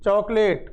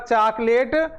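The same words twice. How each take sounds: First: The first vowel sits between aa and o. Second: The first vowel is an open aa sound. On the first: The speaker calls it right. "आ और ओ के मध्य की ध्वनि हमें निकालनी है" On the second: The speaker calls it wrong. "यदि कोई कहेगा चॉकलेट तो वो आ की ध्वनि आ रही है"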